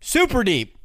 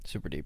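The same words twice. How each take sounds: First: It is said with lively enthusiasm. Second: It is said flatly, with little energy.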